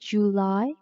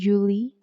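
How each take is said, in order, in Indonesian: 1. Diucapkan dengan cara baca Inggris. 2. Diucapkan dengan cara baca Indonesia. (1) "tapi July" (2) "bukan Julie"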